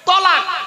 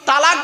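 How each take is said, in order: First: The first vowel is a short 'o'. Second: The first vowel is a long open 'aa'. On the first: The speaker calls it right. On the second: The speaker calls it wrong. "শব্দটা কিন্তু তালাক বলবেন না"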